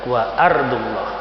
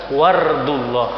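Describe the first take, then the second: First: A glottal stop separates the two words. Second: The words run together without a glottal stop. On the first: The speaker calls it right. "a-nya itu harus dibaca" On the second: The speaker calls it wrong. "tidak boleh dibaca wardullah"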